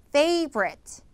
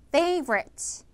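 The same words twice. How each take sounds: No difference in how they are said.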